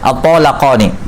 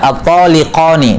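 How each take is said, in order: First: The vowel after the L is 'a'. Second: The vowel after the L is 'i'. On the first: The speaker calls it right. "yang benarnya" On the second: The speaker calls it wrong. "dikasrah lamnya"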